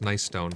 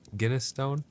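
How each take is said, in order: First: The first word begins with a plain n sound. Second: The first word begins with a hard g sound. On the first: The speaker calls it right. "it's actually pronounced nice stone" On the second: The speaker calls it wrong. "Sinister says I pronounced it Guinness Stone"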